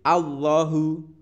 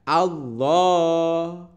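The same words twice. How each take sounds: First: The final vowel is cut short. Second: The final vowel is held long. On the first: The speaker calls it wrong. "tidak boleh Allahu" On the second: The speaker calls it right. "membaca yang panjang. Jadi membacanya Allahu seperti itu"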